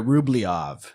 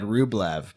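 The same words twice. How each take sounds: First: It is pronounced the way Russian speakers say it. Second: It is pronounced the way the English spelling suggests. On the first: The speaker calls it right. "upgrade my pronunciation here ... because that's how the Russians seem to pronounce it" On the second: The speaker calls it wrong. "until recently, I would have said Rublev"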